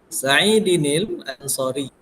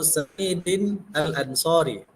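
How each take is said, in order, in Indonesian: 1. Bunyi n menyambung dengan lancar ke kata berikutnya. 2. Tidak ada bunyi n; kedua kata dibaca terpisah. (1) "sama seperti membaca Al-Qur'an" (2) "Jangan dibaca"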